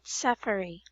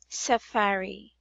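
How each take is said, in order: First: The stress is not on the middle syllable. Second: The stress is on the middle syllable. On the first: The speaker calls it wrong. "not safari" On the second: The speaker calls it right. "this actually is safari"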